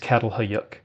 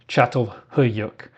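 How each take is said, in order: First: The name is said with English-style sounds. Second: The name is said with Turkish-style sounds. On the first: The speaker calls it wrong. "The mispronunciation is" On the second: The speaker calls it right. "If you don't want to offend Turkish people, you'll try to say"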